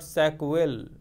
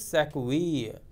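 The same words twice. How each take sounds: First: The name ends with a 'vill' sound. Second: The name ends with a 'vee' sound. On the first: The speaker calls it wrong. "this is not Sackville" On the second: The speaker calls it right. "This is Sackville. In French, I double L E is E"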